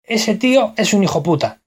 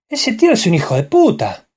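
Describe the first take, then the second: First: Castilian accent, clipped "hijo puta" without the de; Spanish accent from Spain. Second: Argentine lilt, higher with swooping stresses; Argentine accent. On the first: Showing how a Spaniard would say the phrase, Spanish accent. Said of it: "El español diría". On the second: Showing how an Argentine would say the same phrase, Argentine accent. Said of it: "Y el argentino diría". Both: Shown as a demonstration.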